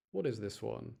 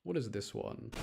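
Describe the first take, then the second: No difference in how they are said.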